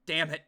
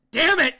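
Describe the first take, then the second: First: Said in the usual way. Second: Sudden high, loud shout; explosive curse. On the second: Acted. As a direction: yell it in frustration.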